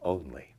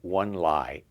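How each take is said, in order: First: It sounds like the ordinary word 'only'. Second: It sounds like the two words 'one lie'. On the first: The speaker calls it right. "that's only" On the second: The speaker calls it wrong. "Don't say one lie"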